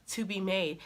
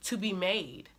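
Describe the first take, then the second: No difference in how they are said.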